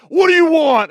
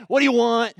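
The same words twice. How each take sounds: First: Gruff clerk, much louder and higher. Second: Brusque, impatient clerk, higher and louder; rude order-taker. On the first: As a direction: growl it at the stumped customer. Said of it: "with a real gruff voice". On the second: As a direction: bark the order question at a customer. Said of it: "a little on the rude side". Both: Retold or imitated.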